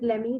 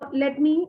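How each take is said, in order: First: Let me is blended into one word, lemme. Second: Let me is said as two separate full words.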